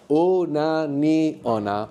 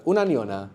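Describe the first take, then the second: First: Very slow, each syllable drawn out. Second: Said in the usual way. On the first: Shown as a demonstration. Teacher breaking the word down for students, very slowly. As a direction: spell the word out by sound, piece by piece. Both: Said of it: "All one word".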